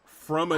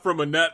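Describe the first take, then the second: First: The name ends with a 'nay' sound. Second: The name ends with a 'net' sound. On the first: The speaker calls it right. "That's how you pronounce that name" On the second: The speaker calls it wrong. "Not from a net"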